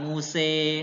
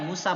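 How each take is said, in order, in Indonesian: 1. Vokal akhirnya condong ke bunyi 'e'. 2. Vokal akhirnya adalah bunyi seperti 'a' yang terbuka. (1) "bukan Muse" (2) "Musa ya Musa"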